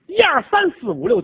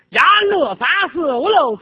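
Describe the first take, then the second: First: The numbers are counted in standard Mandarin. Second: The numbers are counted in a local dialect.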